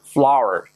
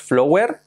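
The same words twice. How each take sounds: First: Flower with ow as in now, falling; correct pronunciation. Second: Flower as spelled, "FLO-wer", rising; wrong pronunciation. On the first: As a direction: say flower as "FLAU-er". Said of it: "Cuidado la pronunciación". (flower bien dicho, como "fláuer") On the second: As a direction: mispronounce flower with an oh. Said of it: "que no es flower". (flower mal dicho, como "flóuer") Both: Shown as a demonstration.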